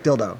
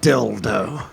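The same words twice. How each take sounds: First: The word is said short and quick. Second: The word is drawn out, leaning on the L. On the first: This is how it should be said. The speaker calls it right. "you gotta get it out quick" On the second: This imitates how someone else says it. The speaker calls it wrong. "There's too much emphasis on the L. Like, you're just like"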